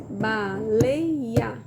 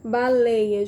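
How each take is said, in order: First: "Baleia" split into three beats, ba-lei-a; syllable by syllable. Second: Said in the usual way. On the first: Shown as a demonstration. Teacher tapping out syllables for children, "Baleia" in separate beats. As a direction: beat out "Baleia" one separate syllable at a time. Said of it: "a gente pode bater na mesa". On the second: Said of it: "escrever a palavra baleia".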